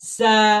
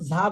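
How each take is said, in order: First: It starts with a buzzing z sound. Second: It starts with a j-like sound. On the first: The speaker calls it right. "উচ্চারণটা একটু করে আসবে এরকম সা" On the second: The speaker calls it wrong. "অনেকে ঝা বলি, এরকম ঝা বলি, আসলে ঝা হবে না"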